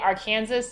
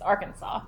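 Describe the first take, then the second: First: The word ends with a sounded s, like Kansas. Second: The final s is silent, ending in saw. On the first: The speaker calls it wrong. "you must be like making fun of it" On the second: The speaker calls it right. "the S is silent"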